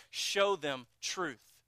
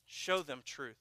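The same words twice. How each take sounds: First: Slow, weighty, each word set apart; slow emphatic. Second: Softer repeat, falling away; soft echo. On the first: Preacher pressing the point on the congregation, slow and emphatic. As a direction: lay down show them truth slowly, word by word. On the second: Preacher repeating the point to the congregation, softly. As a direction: let show them truth drop to a quiet echo. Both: Real, not acted.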